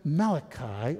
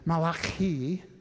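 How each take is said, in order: First: The name is said in an anglicized way. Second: The name is said in an Italian-like way. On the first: The speaker calls it wrong. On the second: The speaker calls it right.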